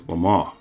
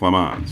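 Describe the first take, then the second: First: It is said with a French pronunciation. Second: It is said with an anglicized pronunciation. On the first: The speaker calls it right. "until I heard it pronounced as Le Mans" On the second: The speaker calls it wrong. "I know I didn't pronounce the name of this car correctly"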